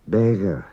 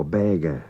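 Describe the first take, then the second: First: "Beggar" with its middle GH as a throaty fricative. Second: "beggar" with a hard G as in give. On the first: Teacher gives learners a GH example, throaty fricative version. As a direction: soften the middle of "Beggar" into a Scottish-loch sound. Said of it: "either like C H in Scottish loch". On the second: Teacher offers learners the easier alternative, hard G version. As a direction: say "beggar" with a plain stopped G in the middle. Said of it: "Just say G as in give". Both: Shown as a demonstration.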